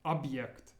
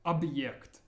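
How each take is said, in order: The two takes are said the same way.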